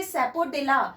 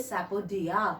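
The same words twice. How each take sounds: First: Sapodilla as spelt, with the L; spelling pronunciation. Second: Sapodilla with silent L, "sapo-dia"; spoken pronunciation. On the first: Teacher gives the form to keep in mind, spelling pronunciation. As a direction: sound the L in sapodilla. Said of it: "दिमाग में तो रखें". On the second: Teacher gives the form to say aloud, spoken pronunciation. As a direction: say sapodilla without its L sound. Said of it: "लेकिन मुंह से बोले". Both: Shown as a demonstration.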